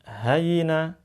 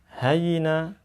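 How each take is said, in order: No difference in how they are said.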